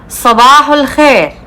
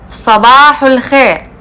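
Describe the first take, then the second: Both takes have the same delivery.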